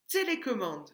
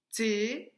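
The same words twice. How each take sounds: First: Said in the usual way. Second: "Télécommande" broken up with a pause after each syllable; split into syllables. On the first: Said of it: "la première syllabe de télécommande". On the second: Shown as a demonstration. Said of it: "On avait frappé les syllabes".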